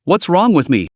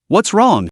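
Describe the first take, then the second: First: A hint of sarcastic pout. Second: Gently worried question; concerned. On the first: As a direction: toss it back, mildly sarcastic. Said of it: "her tone dripping with sarcasm". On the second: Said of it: "Lin Fan's voice was filled with concern". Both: A narrator's reading.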